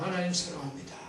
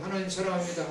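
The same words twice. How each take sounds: First: It is said with sincere, heartfelt feeling. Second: It is said as a rote, mechanical repetition.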